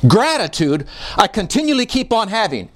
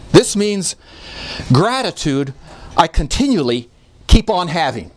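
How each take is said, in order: First: "Gratitude" leads in one flowing phrase, stress on "continually"; smooth emphatic reading, "Gratitude" up front; emphatic word order. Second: "gratitude" isolated by pauses before and after; paused, word-by-word rendering with "gratitude" standing alone; gratitude set apart. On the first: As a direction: run it together and lean on "continually". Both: Shown as a demonstration. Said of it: "it makes the word gratitude emphatic".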